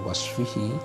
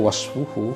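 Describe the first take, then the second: First: The word ends with the vowel i. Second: The word ends with the vowel u. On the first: The speaker calls it wrong. "bukan wasfihi" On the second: The speaker calls it right. "bacanya wasfuhu"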